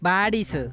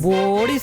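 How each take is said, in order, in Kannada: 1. ಮೊದಲ ಸ್ವರ ದೀರ್ಘ 'aa' ಶಬ್ದ. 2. ಮೊದಲ ಸ್ವರ ದೀರ್ಘ 'o' ಶಬ್ದ. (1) "ಬಾಡೀಸ್ ಬಾಡೀಸ್" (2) "ಬೋಡೀಸ್ ಅಲ್ಲ"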